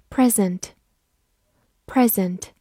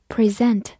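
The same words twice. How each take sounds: First: "present" stressed on the first syllable, PREZ-ent; noun pronunciation. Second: "present" stressed on the second syllable, pri-ZENT; verb pronunciation. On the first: Teacher reviewing the word for a gift, "present" stressed as PREZ-ent. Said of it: "此外，它还可以读present". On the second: Teacher showing the other reading as a verb, "present" stressed as pri-ZENT. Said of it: "它还可以读present". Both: Shown as a demonstration.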